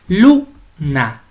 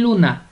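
First: "luna" cut in two, LU-na, stress on "lu"; split into syllables. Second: Said in the usual way. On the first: Shown as a demonstration. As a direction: hit "lu" in "luna", pause, then "na". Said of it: "la sílaba tónica es lu". ("luna" separada en sílabas, con fuerza en "lu") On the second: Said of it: "usted la va a separar".

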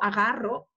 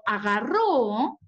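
First: Agarro with the stress on the middle "ga", no accent at the end; present tense agarro. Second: Agarró with the stress on the final "ró"; past tense agarró. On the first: Teacher contrasting the present tense for students, agarro stressed in the middle. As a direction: lean on "ga" in agarro and let "rro" fall. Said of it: "este verbo, agarro, no está presente".

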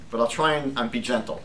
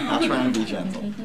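First: Said in the usual way. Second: Gentle promise through a laugh. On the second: Real, not acted. Teacher joking to class, laughing. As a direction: chuckle as you say it.

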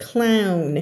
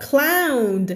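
First: "clown" with a clear n at the end, set against "cloud"; clown, for contrast. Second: "cloud" drawn out slowly, ending on a clear final d. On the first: Teacher contrasts "clown" with "cloud" for her students. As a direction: say "clown" and land on the n, not a d. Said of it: "ถ้าเสียงนี้คือ clown". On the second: Teacher models "cloud" for her class, slow and careful. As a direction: stretch "cloud" slowly so the d at the end is heard. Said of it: "cloud ในที่นี้ออกเสียงนะคะ cloud". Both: Shown as a demonstration.

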